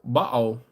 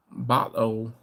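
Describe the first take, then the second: First: "Bottle" said with a dark, rounded bah, hard t; "Bottle" with a short bah and a hard t; Baltimore bottle. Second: "Bottle" ending in an o, the l dropped, as "botto"; "Bottle" with the l swallowed into o; bottle, trailing. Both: Shown as a demonstration. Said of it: "Grandma used to say".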